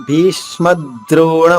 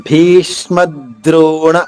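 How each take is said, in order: No difference in how they are said.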